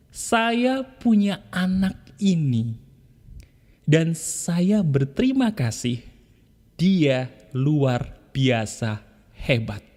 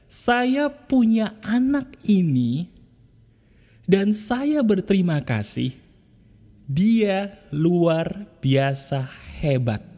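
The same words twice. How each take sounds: First: Tender affirmation. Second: Tender affirmation again. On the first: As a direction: say it gently, hand on your child. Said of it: "kamu katakan begini". (ucapan syukur lembut dan pelan) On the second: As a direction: repeat it slowly with more lift. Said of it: "Sentuh lagi, ayo". (ucapan syukur pelan dengan nada naik) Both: Shown as a demonstration.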